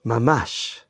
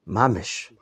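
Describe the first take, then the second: First: It is said with a non-Ashkenazi accent. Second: It is said with an Ashkenazi accent.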